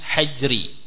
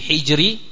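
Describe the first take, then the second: First: The first vowel is a. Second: The first vowel is i. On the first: "bisa pula dengan fathahnya ha" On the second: "Bisa dibaca dengan kasrahnya al-ha"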